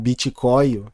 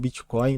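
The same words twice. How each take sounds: First: Bitcoin is pronounced in a distorted way. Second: Bitcoin is pronounced in the standard way. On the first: The speaker calls it wrong. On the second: The speaker calls it right.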